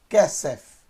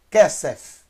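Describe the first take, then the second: No difference in how they are said.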